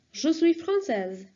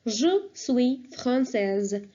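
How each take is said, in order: First: Said in the usual way. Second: "Je suis française" very slow and careful; slow model phrase. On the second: Shown as a demonstration. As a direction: stretch out "Je suis française" for learners. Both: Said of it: "I will say".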